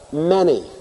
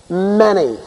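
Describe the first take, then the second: First: Many said again, softer, falling away; a hushed, thoughtful Many; stress on Many. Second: Many said firmly with a falling tune; stress on Many. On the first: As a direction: press Many quietly, letting it sink in. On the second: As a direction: lean hard on the word Many. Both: Shown as a demonstration. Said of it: "the emphasis on the words".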